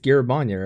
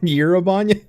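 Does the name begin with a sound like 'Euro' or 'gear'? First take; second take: gear; Euro. First: The first syllable sounds like 'gear'. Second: The first syllable sounds like 'Euro'. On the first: The speaker calls it right. "I was pronouncing it like gear" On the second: The speaker calls it wrong. "not it's not like Euro"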